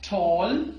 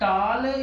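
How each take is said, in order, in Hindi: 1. यह मानक अंग्रेज़ी लहजे में कहा गया है। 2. यह पंजाबी लहजे में कहा गया है।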